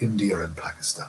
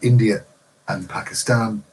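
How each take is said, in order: First: An R sound links India to and. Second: A glottal stop separates India from and. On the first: "they replaced that glottal stop with" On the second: "instead of saying"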